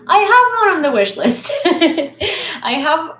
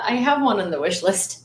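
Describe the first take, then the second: First: High, loud, excited call; excited outburst. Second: Said in the usual way. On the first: Real, not acted. Streamer blurting out about the wish list, excited outburst. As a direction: burst out with it, pitched way up.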